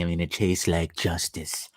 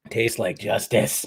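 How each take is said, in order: First: Hushed whisper. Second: Said in the usual way. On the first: Acted. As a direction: whisper it like a secret. Savoring coffee, repeats the line.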